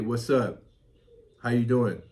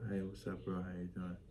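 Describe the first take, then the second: First: It is said loudly and clearly. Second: It is said quietly and weakly.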